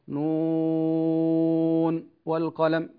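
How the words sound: There is a short break after the first word. The speaker calls it wrong. "لا نقول مثلا نون والقلم، لا هذا خطأ"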